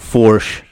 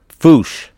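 First: The word is said with an R sound. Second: The word is said without an R sound. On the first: The speaker calls it wrong. "Not Fourche" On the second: The speaker calls it right. "It's Belfouche"

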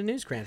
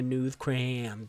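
First: It is said without a lisp. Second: It is said with a lisp.

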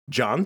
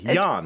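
First: The name starts with a hard J sound. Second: The name starts with a soft J sound.

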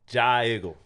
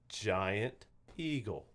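First: It is squeezed into one short blended word. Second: It is said as two clearly separate words. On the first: "Go down to the Jiggle" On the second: "Two words, right?"

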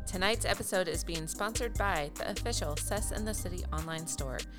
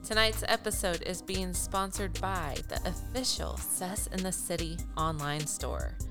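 First: The words are clipped short and quick. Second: The words are stretched out and flowing.

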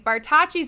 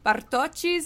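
First: The name is said with an American pronunciation. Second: The name is said with an Italian pronunciation. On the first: "is how we would say it in America" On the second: "is how it would be said in Italian"

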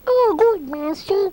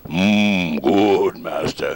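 First: It is a light, silly, unscary voice. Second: It is a deep, menacing monster voice.

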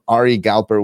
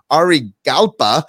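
First: The name is said in a non-Australian accent. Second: The name is said in an Australian accent.

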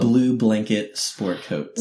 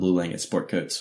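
First: The name is said slowly and deliberately. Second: The name is said at a normal pace.

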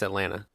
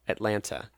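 First: Only one T sound in the word is pronounced. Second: Both T sounds in the word are pronounced. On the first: The word is said in everyday casual talk. "There's only one T in Atlanta" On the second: The word is being read carefully from a page. "if I'm reading it off a sheet of paper, I will say Atlanta"

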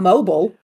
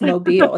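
First: It is pronounced as the word for a phone. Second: It is pronounced as the city name. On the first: It refers to a phone. The speaker calls it wrong. "It's not mobile. ... that's a phone" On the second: It names the city. The speaker calls it right. "that's what it's called. It's Mobile"

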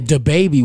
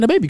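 First: The words are said separately with clear emphasis. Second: The words run together smoothly without emphasis. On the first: It is used as a person's name. "now you gotta put an emphasis on it because it's a name" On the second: It is an ordinary phrase about a baby. "It's slick. It just go into you"

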